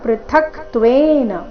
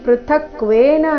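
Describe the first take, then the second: First: A t sound comes between k and v. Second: The k goes straight into v without t. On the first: The speaker calls it right. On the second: The speaker calls it wrong.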